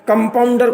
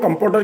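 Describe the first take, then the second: First: The word is said in its full form. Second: The word is said in a shortened form.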